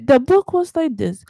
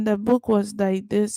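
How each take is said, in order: First: It is spoken with emphasis, breaks and rising pitch. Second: It is spoken in a flat, monotone voice. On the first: The speaker calls it right. "You say, ... break in your words and rise up" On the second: The speaker calls it wrong. "You don't do"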